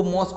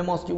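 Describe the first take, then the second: First: "मॉस्क" ending straight on the k; pronounced mosk. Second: "मॉस्क्यू" with a "kyoo" ending; pronounced moskyu. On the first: Teacher showing what some people say, "मॉस्क" ending on k. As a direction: say "मॉस्क" with no "yoo" after the k. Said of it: "कुछ लोग उसको मॉस्क बोलते हैं". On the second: Teacher giving his own version, "मॉस्क्यू" ending in kyoo. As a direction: add a "yoo" after the k in "मॉस्क्यू". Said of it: "मैं मॉस्क्यू बोलता हूँ". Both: Shown as a demonstration.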